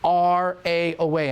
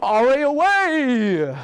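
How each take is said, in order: First: It is said in a plain, normal voice. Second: It is said in a dramatic superhero voice.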